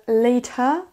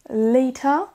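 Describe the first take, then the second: First: It is said with a British accent. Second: The same.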